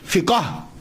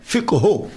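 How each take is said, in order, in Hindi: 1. शब्द को 'fika' की तरह बोला जाता है। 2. शब्द को 'fiqh' की तरह बोला जाता है। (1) "देखा ना आम चलता है ना" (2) "ये इसका प्रोनाउंसिएशन अलफिक हो है"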